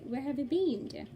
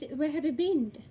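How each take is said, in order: First: The word 'been' sounds like 'seen'. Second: The word 'been' sounds like 'bin'. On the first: "in Brits, they usually say" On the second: "American says, ... Which means B I N"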